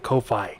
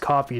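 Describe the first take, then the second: First: It is said as two separate parts, koh-fee. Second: It is said exactly like the word coffee. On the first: "some pronounce it Ko-Fi" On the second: "I believe it might be pronounced coffee though"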